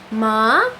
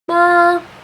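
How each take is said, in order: First: The pitch starts low and rises. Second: The pitch stays high and level. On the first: "you start low and go up" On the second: "tone one is a flat tone, a flat high tone"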